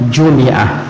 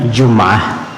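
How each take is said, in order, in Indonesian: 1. Vokal i terdengar setelah m. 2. Tidak ada vokal yang terdengar setelah m. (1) "boleh dikasrahkan bunyinya" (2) "Boleh disukunkan bunyinya"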